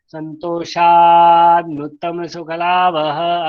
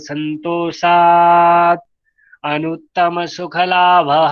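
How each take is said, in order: First: The words are run together without breaks. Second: The words are separated with small breaks.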